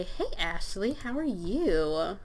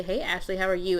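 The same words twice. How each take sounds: First: Slow, drawn-out hello to a crush; lingering, flirty pretend greeting; sweet greeting. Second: Said in the usual way.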